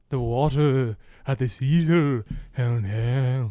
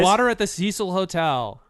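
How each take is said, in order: First: It is said in a spooky, theatrical way. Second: It is said in a plain, ordinary way.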